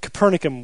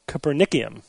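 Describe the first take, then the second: First: Copernicum said co-PER-ni-cum; plain Copernicum ending in cum, stressed on PER; without extra I. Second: Copernicum said as co-per-NICK-ee-um; extra I pronunciation. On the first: Host argues for the simpler name, Copernicum without the extra ee. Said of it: "would have been better". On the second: Host reveals the odd element name, Copernicum said co-per-NICK-ee-um. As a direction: add an ee before the final um in Copernicum. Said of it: "threw another I in there". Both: Shown as a demonstration.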